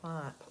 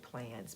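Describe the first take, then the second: First: The vowel sounds like the one in 'dons'. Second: The vowel sounds like the one in 'fans'. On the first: It copies how a Scottish friend says it. "we pronounce it Plons because of, of um, Ashley in Scotland" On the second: It is the name's actual pronunciation. "It's actually Plans"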